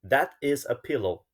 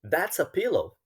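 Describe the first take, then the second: First: That is is said as two separate words. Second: That is is contracted and linked to a. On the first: Natives rarely say it this way. "Não está errado dizer assim, está correto" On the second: This is how natives usually say it. "normalmente eles vão emendar e vão dizer that's a"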